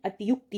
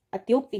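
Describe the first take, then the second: First: अतियुक्ति as a-ti-yuk-ti; अतियुक्ति with ti and yu separate; अतियुक्ति said the correct way; correct pronunciation. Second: अत्योक्ति as at-yok-ti; अत्योक्ति with yo, the common mistake; अत्योक्ति, wrong form; wrong pronunciation. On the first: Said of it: "अतियुक्ति होता है". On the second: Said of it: "अत्योक्ति नहीं". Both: Shown as a demonstration.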